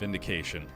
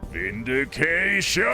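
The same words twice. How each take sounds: First: The word is said flatly, with little energy. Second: The word is said loudly, with triumphant energy. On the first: The speaker calls it wrong. "Sorry, I didn't say that right" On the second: The speaker calls it right. "That's better"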